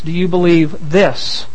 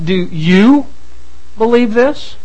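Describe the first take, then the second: First: The stress falls on the word this. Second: The stress falls on the word you. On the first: The question asks precisely about these particular claims. "Being very precise" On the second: The question is aimed at the listener personally. "it is a personal question"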